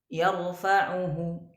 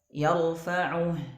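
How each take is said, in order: First: The word ends with a faint vowel after h. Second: The word ends on a silent h. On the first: The speaker calls it wrong. "Tidak boleh kita bacanya yarfa'uhu" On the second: The speaker calls it right. "Jadi dibaca seperti biasa"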